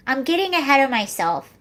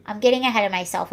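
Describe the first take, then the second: First: Said in the usual way. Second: Quick self-correcting aside, lower; fast muttered repeat. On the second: Real, not acted. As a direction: rattle it off fast and lower, under the breath. Repeats phrase, second time rushed.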